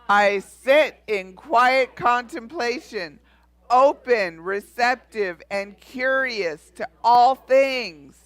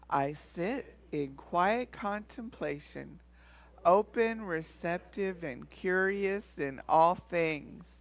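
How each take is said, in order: First: It is declared strongly and forcefully. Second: It is spoken in a normal voice.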